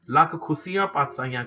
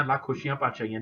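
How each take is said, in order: First: ਖੁਸ਼ੀਆਂ ਪਾਤਸ਼ਾਹੀਆਂ said with plain s sounds; correct Gurbani pronunciation. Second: ਖੁਸ਼ੀਆਂ ਪਾਤਸ਼ਾਹੀਆਂ said with sh sounds; quick ਪਾਤਸ਼ਾਹੀਆਂ with sh, the way not to say it; wrong pronunciation. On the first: Teacher showing the sangat the right way, plain s. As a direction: say ਪਾਤਸ਼ਾਹੀਆਂ as patsaahiaan, no sh. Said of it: "ਕਹਿਣਾ". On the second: Teacher showing the sangat the wrong way, with sh. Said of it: "ਨਹੀਂ ਕਹਿਣਾ". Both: Shown as a demonstration.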